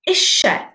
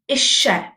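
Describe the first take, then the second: First: It is said the South Wales way. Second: The same.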